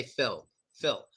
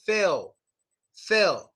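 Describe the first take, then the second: First: "Phil" with a full final L; pronounced L. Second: "Phil" ending in a little W sound; American swallowed L. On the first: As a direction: finish "Phil" on a clear tongue-up L. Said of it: "pronounce the L". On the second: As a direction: drop the L of "Phil" into a W. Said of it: "It's like a little W sound". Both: Shown as a demonstration.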